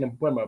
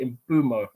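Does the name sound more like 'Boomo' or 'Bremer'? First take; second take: Bremer; Boomo. First: The name is said like 'Bremer'. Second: The name is said like 'Boomo'. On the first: The speaker calls it wrong. "I keep saying in Bremer" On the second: The speaker calls it right. "but it's actually in Boomo"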